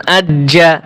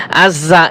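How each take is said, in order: First: আজ্জা with a firm doubled জ; correct ajja. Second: আজ্জা said the mistaken way; wrong ajja. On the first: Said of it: "এটা হচ্ছে সঠিক উচ্চারণ". (সঠিক উচ্চারণে আজ্জা) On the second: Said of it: "এভাবে বলা যাবে না". (ভুল উচ্চারণে আজ্জা) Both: Shown as a demonstration.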